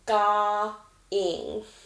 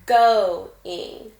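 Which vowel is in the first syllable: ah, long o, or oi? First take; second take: ah; long o. First: The first syllable has a short ah vowel. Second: The first syllable has a long o vowel. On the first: The speaker calls it wrong. "the short O makes the ah sound ... try it with ah first" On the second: The speaker calls it right. "try it again with the long sound"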